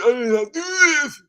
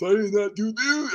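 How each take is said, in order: First: Higher, louder mock plea of innocence; desperate denial. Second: Said in the usual way. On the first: Eric swears to the public he is innocent, hammed-up higher plea. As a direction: insist it again, higher and louder.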